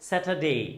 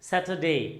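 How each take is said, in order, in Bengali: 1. r ধ্বনিটি একেবারে বাদ পড়ে যায়। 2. r ধ্বনিটি একেবারে বাদ পড়ে যায়।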